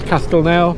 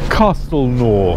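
First: It has the original Occitan pronunciation. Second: It has the modern local pronunciation. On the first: This is how the name was first said. The speaker calls it right. "that's the original Occitan pronunciation" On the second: This is how people living there say it today. The speaker calls it wrong. "the locals nowadays call it Castelnau"

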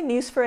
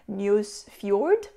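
First: The name is said in an anglicized way. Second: The name is said in a Norwegian-style way. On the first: This is the speaker's habitual way of saying it. The speaker calls it wrong. "I say Nusfjord" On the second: This is the way the name is properly said. The speaker calls it right. "the proper pronunciation would be something like Nusfjord"

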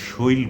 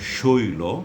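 First: The word ends on the bare final consonant. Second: The word ends with a final 'o' vowel. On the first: The speaker calls it wrong. "এগুলোকে আমরা শৈল বলি না" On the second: The speaker calls it right. "আমরা বলবো"

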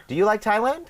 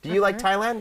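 No difference in how they are said.

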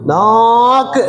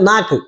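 First: The first vowel is stretched out very long. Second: The first vowel has its normal long length. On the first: The speaker calls it wrong. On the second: The speaker calls it right.

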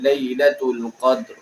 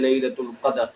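First: Both final consonants are said without a vowel. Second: A vowel is inserted between the final consonants. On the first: The speaker calls it right. "दूसरा जो साकिन है उसको थोड़ा सा वाज़ेह करना, जैसे" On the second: The speaker calls it wrong. "अब यहाँ पर आके वो पढ़ते हैं लैलतुल क़द्र। तो लैलतुल क़द्र ये गलत है"

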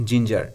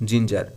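Both takes have the same delivery.

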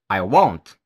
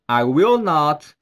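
First: The words are contracted into two words. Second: The words are said in full as three words.

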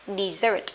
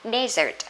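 First: The stress is on the second syllable. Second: The stress is on the first syllable. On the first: It is a verb meaning to abandon. "động từ thì sẽ là gì đây? Dessert" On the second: It is a noun. "danh từ sẽ là desert"

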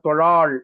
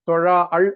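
First: The word is said as one smooth unit. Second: The word is broken into two separate parts. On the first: The speaker calls it right. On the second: The speaker calls it wrong. "சில பேர் தொழா அள் அப்படின்னு படிக்கிறாங்க. அப்படி படிக்கூடாது"

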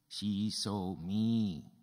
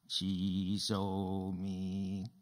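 First: The stress is on the word me. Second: No word is stressed; the delivery is flat. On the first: "Who did she see?" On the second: "Say, she saw me with no expression"

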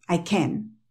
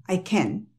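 No difference in how they are said.

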